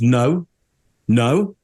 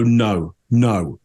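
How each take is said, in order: First: The repeated no sounds open and uncertain. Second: The repeated no sounds firm and definite. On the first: She might know the person after all. The speaker calls it wrong. "the other left room for possibility" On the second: She definitely does not know the person. The speaker calls it right. "you'd expect her to go no, no"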